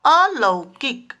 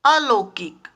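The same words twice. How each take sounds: First: अलौकिक slow, with open "lau"; correct form. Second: अलौकिक with plain "lo", "alokik"; wrong form. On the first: Teacher corrects children, slow careful pronunciation. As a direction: say अलौकिक as "a-LAU-kik", au drawn out. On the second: Teacher reads out the error to children, mispronounced. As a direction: say अलौकिक as "a-LO-kik", o for au. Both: Shown as a demonstration. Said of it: "अलौकिक नहीं".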